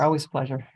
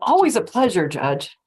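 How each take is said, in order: First: It sounds flat and perfunctory. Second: It sounds warm and sincere.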